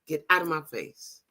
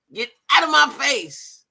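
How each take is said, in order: First: Said in the usual way. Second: Slow, louder and higher, my face punched; mock tough warning. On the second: Echoing T's warning to a stranger, louder, higher and slow. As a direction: lay down the warning like a threat. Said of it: "T say".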